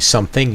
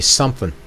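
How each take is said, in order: First: The ending is said with a full g sound. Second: The ending is said without the g sound. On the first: "instead of saying something" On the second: "you drop the G"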